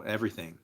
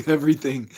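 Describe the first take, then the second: First: Said in the usual way. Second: Laughing. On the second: Real, not acted. Repeats word with laugh.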